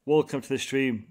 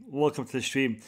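No difference in how they are said.

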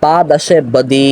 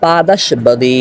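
First: "পা দাসে বদি" with linking e after the s; izafat reading. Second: "পা দাস বাদি" with no linking e after দাস; sifat reading. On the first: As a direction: join দাসে to বদি through an e. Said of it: "যদি আপনি ইজাফত ধরেন তাহলে উচ্চারণ হবে". (ইজাফতের এ-কার দিয়ে "পা দাসে বদি") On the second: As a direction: end দাস on its s, then বাদি. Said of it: "যদি আপনি মাওসুফ সিফাত ধরেন তাহলে উচ্চারণটা হবে". (ইজাফত ছাড়া "পা দাস বাদি" উচ্চারণ) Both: Shown as a demonstration.

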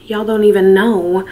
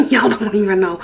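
First: Said in the usual way. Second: Giggling through the words; laughing. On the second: Real, not acted. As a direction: laugh as you say it. Repeats line while laughing.

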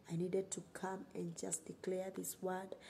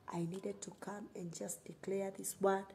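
The two takes are said the same way.

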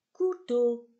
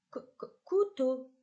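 First: Said in the usual way. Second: "couteau" with its opening k sound tapped out twice before the word; teacher sounding out the start of "couteau"; first sound repeated. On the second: Shown as a demonstration. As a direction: stutter the hard c on purpose, then say "couteau". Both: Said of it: "on entend, on lève le doigt".

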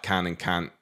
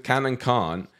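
First: "can" and "can't" with the same short A; partner's can/can't. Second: Short A in "can", long open AH in "can't"; southern can/can't. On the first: Retold or imitated. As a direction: make "can't" rhyme with "ant", just like "can". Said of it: "In yours". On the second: Shown as a demonstration. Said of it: "can with a short A and can't with a long A".

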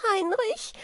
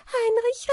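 First: High rising call of the name Heinrich; fairy crying for her rescuer; frightened call. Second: Second, more desperate cry for help; more desperate call. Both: Acted. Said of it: "Wieglinde rief".

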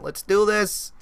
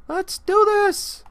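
First: Said in the usual way. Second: Much higher, slow, stretched-out hype; hyped-up cheer. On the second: Real, not acted. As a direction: sing it out all pumped up. Hatching progress, hype.

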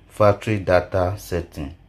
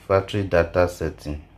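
No difference in how they are said.

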